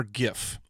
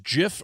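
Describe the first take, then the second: First: Gif said with G as in gift; hard G. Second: Gif said as "jiff"; soft G. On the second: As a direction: start gif with a J sound. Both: Shown as a demonstration. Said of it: "is it pronounced gif or gif".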